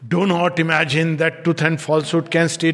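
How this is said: It is said with extreme, forceful emphasis. The speaker insists on it absolutely. "Another is complete extreme"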